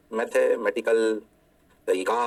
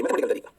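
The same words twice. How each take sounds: First: mathematical तरीका stretched very slow and lower; slow, lowered emphasis on mathematical तरीका; drawn out slowly. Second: Said in the usual way. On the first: Shown as a demonstration. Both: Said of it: "repeats phrase drawn out".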